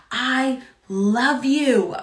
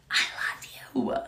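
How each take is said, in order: First: Slow, tender I love you; slow declaration. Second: Breathy hushed I love you; whispered. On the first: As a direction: let each word land slowly. Repeated declaration, first spoken. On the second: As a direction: drop to a whisper to God. Repeated declaration, then whispered. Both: Acted.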